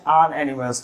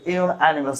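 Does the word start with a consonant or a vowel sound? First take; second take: vowel; consonant. First: The word starts with a plain vowel sound. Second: The word starts with a 'y' consonant sound. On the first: The speaker calls it wrong. "not an animals" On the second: The speaker calls it right. "Correct pronunciation is in animals"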